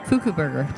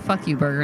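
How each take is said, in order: First: The name sounds like 'foo-koo'. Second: The name sounds like the words 'fuck you'. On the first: The speaker calls it right. "That is how it's pronounced" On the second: The speaker calls it wrong. "I want to say fuck you, burger, and I'm sure that's not it"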